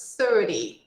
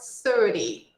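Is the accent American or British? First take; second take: American; American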